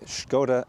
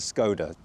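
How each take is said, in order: First: The name has its Czech-style pronunciation. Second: The name has its anglicized English pronunciation. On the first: "I said Škoda that time" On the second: "instead of Skoda"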